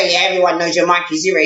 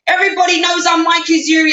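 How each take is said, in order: First: Low, unimpressed aside; dry dismissal. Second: Raised, whining boast through mock tears; mock crying. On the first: Real, not acted. Answering the scammer's boast, dry dismissal. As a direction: drop the act and scoff in a low voice. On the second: Scammer crying about being well known, mock wail. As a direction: imitate the pleading caller. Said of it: "He can cry".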